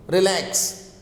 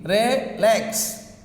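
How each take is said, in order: First: Said in the usual way. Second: Relax broken in two, re, then lax; split into syllables. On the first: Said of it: "stress is on second syllable". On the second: Shown as a demonstration. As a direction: count out Relax as two separate beats. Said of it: "How many syllables?".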